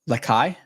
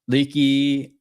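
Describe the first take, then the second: First: The name sounds like Makai with an L. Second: The name does not sound like Makai.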